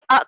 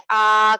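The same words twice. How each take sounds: First: First آ cut off with a jolt; abrupt "ah!" for آ, as the mistake; very short, jerked آ. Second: Last آ drawn out into a long "aaah"; long, loud, held آ; stretched a. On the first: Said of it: "اس کو نہ جھٹکا دیں گے". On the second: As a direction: drag آ out, as the mistake. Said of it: "نہ ہی اس کو کھینچیں گے". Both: Shown as a demonstration.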